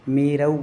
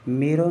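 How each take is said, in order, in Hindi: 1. अंतिम स्वर 'au' संयुक्त स्वर है। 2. अंतिम स्वर 'au' संयुक्त स्वर नहीं है। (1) "जहाँ औ की मात्रा हो वहाँ औ की करें" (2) "मेरव नहीं है"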